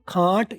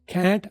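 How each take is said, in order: First: It is said with a British accent. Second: It is said with an American accent. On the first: "ये British है" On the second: "American है"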